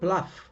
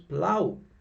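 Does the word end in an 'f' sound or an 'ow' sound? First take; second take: f sound; ow sound. First: The word ends with an 'f' sound. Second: The word ends with an 'ow' sound. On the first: The speaker calls it wrong. "This is not plough" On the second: The speaker calls it right. "this is plow"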